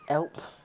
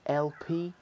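First: The name is said as one syllable. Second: The name is said as two syllables.

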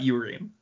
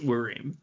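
First: The word begins with a 'yoo' sound. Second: The word begins with a plain 'oo' vowel. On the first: The speaker calls it wrong. "not Urim" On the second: The speaker calls it right. "he knows it's Urim"

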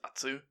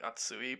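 First: The word is said with its final vowel cut off. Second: The word is said in full with its final vowel. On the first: "everyone just says atsu" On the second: "the word for hot is like atsui"

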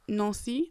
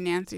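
First: The name is said with French pronunciation. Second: The name is said with English pronunciation.

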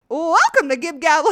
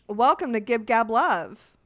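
First: It is said in a cartoon character voice. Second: It is said in her own flat voice.

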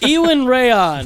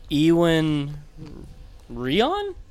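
First: The name is said firmly and confidently. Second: The name is said unsurely, like a question.

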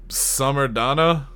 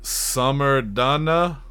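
First: It is said at a normal pace. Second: It is said slowly, drawn out.

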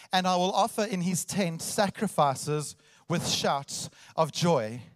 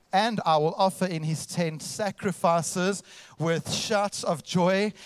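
Both takes have the same delivery.

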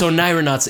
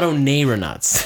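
First: The second syllable sounds like 'nye'. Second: The second syllable sounds like 'nay'. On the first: The speaker calls it right. "It's onai" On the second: The speaker calls it wrong. "but nay is the wrong one"

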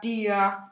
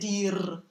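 First: The final r is sounded as a vowel. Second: The final r is sounded as a consonant. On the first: The speaker calls it right. "if we say mir, dir" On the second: The speaker calls it wrong. "we don't need to say dir"

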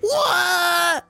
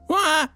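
First: The sound is drawn out and long. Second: The sound is short and clipped. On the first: "the second one. The longer one" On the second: "Was it a short noise?"

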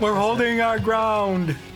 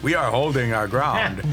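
First: It is said in a high-pitched voice. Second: It is said in a normal voice.

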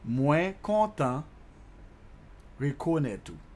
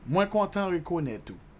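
First: It is said more slowly. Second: It is said at normal speed.

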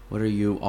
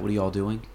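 First: It is said slower with 'you all' in full. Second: It is said quickly with 'you all' reduced.

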